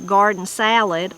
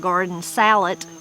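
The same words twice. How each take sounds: First: The last word ends with a D sound. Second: The last word ends with a T sound.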